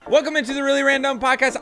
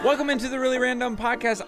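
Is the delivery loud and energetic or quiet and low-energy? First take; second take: loud; quiet. First: It is said loudly with much more energy. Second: It is said quietly with little energy. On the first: The speaker calls it right. "I want you to break the goddamn audio technicas" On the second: The speaker calls it wrong. "Why are you so quiet? I feel like you didn't give me that much energy"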